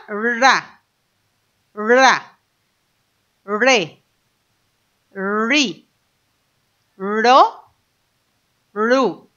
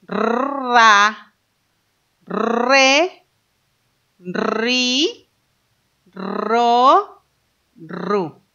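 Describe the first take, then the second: First: "ra. Ra. Re. Ri. Ro. Ru." with a soft, short r; soft R syllables. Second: "Ra. Re. Ri. Ro. Ru." with a long rolled r; strong R syllables. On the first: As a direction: say each "ra, re, ri, ro, ru" with a light r. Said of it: "Lo vamos a hacer suave". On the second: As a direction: trill hard into each "Ra, Re, Ri, Ro, Ru". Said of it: "si lo queremos hacer fuerte". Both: Shown as a demonstration.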